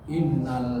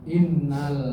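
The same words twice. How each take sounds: No difference in how they are said.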